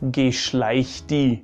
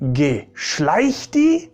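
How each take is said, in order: First: It is said in an annoyed, dismissive way. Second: It is said in an amazed, disbelieving way. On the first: The listener should go away. "if you want someone to go away" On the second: Something is hard to believe. "if you pronounce it a bit differently"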